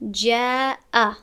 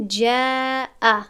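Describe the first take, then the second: First: جاء slow, alif thin and light; light alif after jim. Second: جاء slow and loud, alif thick and full; heavy wrong alif. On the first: Teacher showing the correct light reading. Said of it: "جیم هم از جمله هفت حرف پر نیست". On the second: Teacher showing the mistaken heavy reading. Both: Shown as a demonstration.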